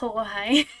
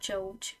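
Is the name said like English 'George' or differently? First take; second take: differently; like George. First: The name does not sound like English George. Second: The name sounds like English George. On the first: The speaker calls it right. "it's not George, it's Jorge" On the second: The speaker calls it wrong. "I called him George because I thought that's how you said it"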